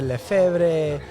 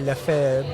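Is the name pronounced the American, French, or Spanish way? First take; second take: Spanish; French. First: The name is said with a Spanish pronunciation. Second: The name is said with a French pronunciation. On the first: It reflects a Spanish-speaking family. "They spoke Spanish. They pronounced it Lefebvre" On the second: It is the original form of the name. "initially Lefebvre, right? It was French"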